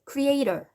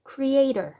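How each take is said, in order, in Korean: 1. 강세는 가운데 음절에 있어요. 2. 강세는 가운데 음절에 있어요.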